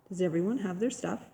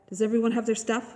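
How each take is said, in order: First: It is said calmly in a normal voice. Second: It is yelled loudly and excitedly.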